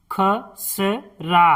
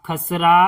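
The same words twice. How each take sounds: First: खसरा drawn out slowly as ख-स-रा; slow syllable-by-syllable. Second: Said in the usual way. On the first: Shown as a demonstration. Teacher sounding out खसरा for pupils, slowly. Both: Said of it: "इस तरह से".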